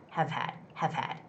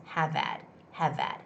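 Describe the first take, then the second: The two takes are said the same way.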